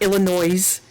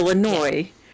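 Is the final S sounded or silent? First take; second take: sounded; silent. First: The final S sound is pronounced. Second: The final S sound is left silent. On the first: The speaker calls it wrong. "it's not Illinois" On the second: The speaker calls it right. "the S is silent at the end"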